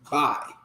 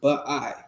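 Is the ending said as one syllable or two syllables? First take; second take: one syllable; two syllables. First: The ending is joined into one single syllable. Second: The ending is split into two separate syllables. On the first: The speaker calls it right. "It's bai. ... The ba and the I are connected" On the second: The speaker calls it wrong. "It's not pronounced ba'i"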